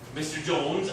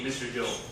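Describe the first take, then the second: First: The voice rises and stays high at the end. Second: The voice falls at the end. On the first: I need to talk to you, so please look at me. The speaker calls it right. "We say it in a special way that means" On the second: It is just saying the name. The speaker calls it wrong. "We don't just say"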